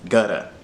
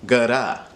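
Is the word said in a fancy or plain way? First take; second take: plain; fancy. First: The word is said in a plain way. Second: The word is said in a fancy way. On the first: "Gutta, like with D's" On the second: "make it a fancy gutta"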